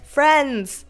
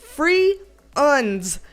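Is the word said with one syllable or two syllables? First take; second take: one; two. First: The word is said as one short syllable. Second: The word is drawn out into two syllables. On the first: "That's one syllable" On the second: "Mine is free uns"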